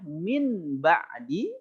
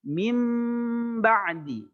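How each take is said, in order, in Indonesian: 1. Bunyi sengau sebelum b terdengar seperti n. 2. Bunyi sengau sebelum b terdengar seperti m yang ditahan. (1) "aslinya min ba'di" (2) "tapi dibacanya menjadi mim ba'di, ditahan dua harakat"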